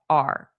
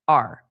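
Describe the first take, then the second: First: The word is reduced to a short 'r' sound. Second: The word is reduced to a short 'r' sound.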